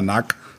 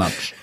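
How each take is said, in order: First: The ending is said with a hard k sound. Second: The ending is said with a tsch sound. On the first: This is the old pronunciation. The speaker calls it wrong. "er ist jetzt nicht mehr Nack" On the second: This is the new, corrected pronunciation. The speaker calls it right. "sondern Natsch"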